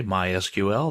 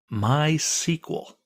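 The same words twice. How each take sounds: First: "My S Q L" read as initials, one letter at a time; letter-by-letter pronunciation. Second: "My S Q L" as two words, my SEE-kwul, drawn out; sequel pronunciation. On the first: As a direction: say "My S Q L" with S, Q, L as separate letters. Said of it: "People in the know don't say". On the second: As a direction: say "My S Q L" as "my sequel", slowly. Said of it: "That's generally how it's pronounced". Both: Shown as a demonstration.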